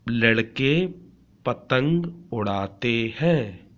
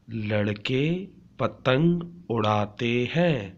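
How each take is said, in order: Both takes have the same delivery.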